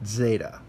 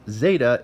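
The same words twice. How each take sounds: First: "zeta" opening with a "zd" cluster; zd-sound zeta. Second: "zeta" with a plain Z, the wrong way; wrong z-sound zeta. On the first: Teacher showing the ancient zd-sound of zeta. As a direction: start "zeta" with Z glided into D. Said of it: "like an S and a D sound put together". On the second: Teacher showing the wrong way to say zeta. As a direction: say "zeta" like the modern Z. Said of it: "It's not zeta". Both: Shown as a demonstration.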